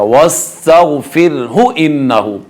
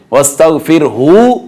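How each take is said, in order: First: वस्तगफिरहु with brief hu, straight into इन्नहु; slow recitation, keep hu of वस्तगफिरहु short; short joined haa. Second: Overstretch the last vowel of वस्तगफिरहु; wrong lengthened haa. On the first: Teacher showing how to join verses, short joined haa. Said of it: "हा को ज़्यादा लंबा नहीं किया जाएगा". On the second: Teacher showing the error, wrong lengthened haa. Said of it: "तो ये गलत हो जाएगा". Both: Shown as a demonstration.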